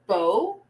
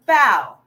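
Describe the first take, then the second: First: "bow" with a long o, rhyming with go; noun pronunciation. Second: "bow" rhyming with cow; verb pronunciation. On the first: Teacher showing the class the first homograph, "bow" said "boh". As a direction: say "bow" like "boh", the archery kind. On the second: Teacher showing the class the second homograph, "bow" said "bau". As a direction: say "bow" like "bau", as in bending at the waist. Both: Shown as a demonstration. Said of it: "they are pronounced differently".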